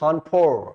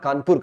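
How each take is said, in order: First: The name is said with a British-style pronunciation. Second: The name is said with an Indian-style pronunciation. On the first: This is how the English rulers said it. "कानपुर को किस तरह से बोलते थे, खानपुर" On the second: This is how Indians say it. "के A N P U आर, कानपुर कर दी"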